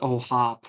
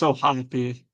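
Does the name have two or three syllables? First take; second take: two; three. First: The name ends on the p, no final vowel. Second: The final E is pronounced as an extra syllable. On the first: The speaker calls it wrong. "it's not just O'Hop" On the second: The speaker calls it right. "I feel like you got to pronounce the E"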